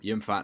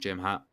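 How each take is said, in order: First: The name begins with a Y sound. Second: The name begins with a J sound. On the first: It is the usual reading of the name. The speaker calls it right. "but no, Yim Fat now" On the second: It is a joking cowboy-style reading. The speaker calls it wrong. "we could maybe call him Jim Hat"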